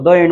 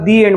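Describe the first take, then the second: First: The article sounds like 'thuh'. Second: The article sounds like 'thee'. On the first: The speaker calls it wrong. "द end म्हणत नाही" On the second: The speaker calls it right. "आपण त्याला दी एंड म्हणतो"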